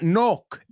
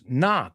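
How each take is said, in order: First: The vowel sounds like 'oh'. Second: The vowel sounds like 'ah'. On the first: The speaker calls it wrong. "So it's not oh" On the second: The speaker calls it right. "it's ah"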